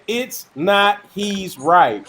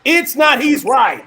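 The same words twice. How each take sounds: First: It is read at normal volume. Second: It is read more loudly.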